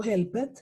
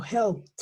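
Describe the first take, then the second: First: "helped" in two syllables, "hel-ped"; wrong extra syllable. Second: "helped" in one syllable, "helpt"; final T sound. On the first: Teacher warns class what not to say, "helped" as "hel-ped". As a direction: sound out the E in "helped". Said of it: "Entonces yo no digo helped". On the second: Teacher models the past tense, "helped" ending in T. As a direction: drop the E and end "helped" on T. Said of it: "con esa T al final". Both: Shown as a demonstration.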